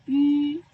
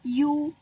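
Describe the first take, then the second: First: "yu" said as ü, lips small and rounded, stronger; the correct ü, lips pursed; right yu. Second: "yu" said as a plain u sound with spread lips; the wrong version, plain u. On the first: Teacher giving pupils the correct reading, emphatic ü. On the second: Teacher showing pupils the wrong reading, plain u. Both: Shown as a demonstration. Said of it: "bukan yu, tapi".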